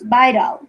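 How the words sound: The word is pronounced with English sounds. The speaker calls it right. "in English it sounds vital"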